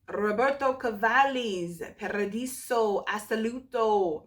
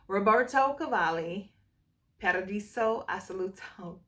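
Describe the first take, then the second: First: The R sounds are strongly rolled. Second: The R sounds are plain, not rolled.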